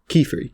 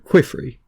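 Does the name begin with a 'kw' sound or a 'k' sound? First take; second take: k; kw. First: It starts with a plain 'k' sound. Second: It starts with a 'kw' sound, like quill. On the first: The speaker calls it right. "But no" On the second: The speaker calls it wrong. "I pronounced him as Quifri ... like Quill and Free"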